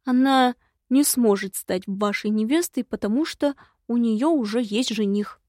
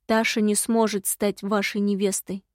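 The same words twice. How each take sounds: First: Brisker, lifted voice of a report. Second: Understated, resigned admission; with a sigh. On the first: Imp reporting to the visitor, dutifully. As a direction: deliver it like a subordinate reporting. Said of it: "отрапортовал Бальтазар". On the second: Imp admitting failure to his visitor, with a sigh. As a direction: say it subdued, as if sighing. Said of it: "со вздохом проговорил ушастый". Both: A narrator's reading.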